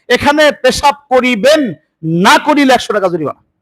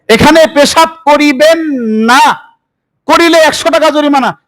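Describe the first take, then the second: First: The pause comes before the word 'না'. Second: The pause comes after the word 'না'.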